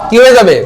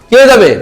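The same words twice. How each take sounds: No difference in how they are said.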